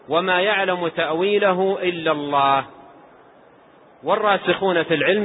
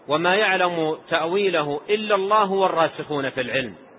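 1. يوجد وقف بعد 'illa Allah. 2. تستمر العبارة دون وقف. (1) "في الآية قراءتان من حيث الوصل والوقف" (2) "القراءة الأخرى"

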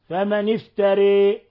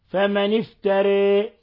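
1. تميل الحركة الأخيرة قليلاً فقط نحو 'ee'. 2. تميل الحركة الأخيرة قليلاً فقط نحو 'ee'.

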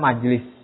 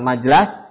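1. Vokal kedua adalah bunyi i. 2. Vokal kedua adalah bunyi a. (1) "tapi yang benar adalah majelis" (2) "bukan majelas"

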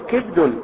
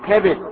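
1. الحركة الأولى كسرة، ولا حركة بعد الباء. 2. الحركة الأولى فتحة، والحرف الثاني فيه كسرة. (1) "كسر الكاف وسكون الباء" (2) "اللغة الفصحى المشهورة فعل"

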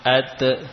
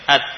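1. Bunyi t di akhir dilepas dengan vokal yang memantul. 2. Bunyi t di akhir ditahan tertutup, tanpa dilepas. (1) "bukan suara pantulan. Ake atau ate, tidak" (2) "Biarkan saja menempel"

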